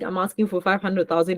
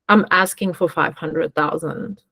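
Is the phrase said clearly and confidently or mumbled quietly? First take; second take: mumbled; confident. First: It is mumbled quietly under the breath. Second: It is said clearly and confidently at full volume. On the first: The speaker calls it wrong. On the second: The speaker calls it right.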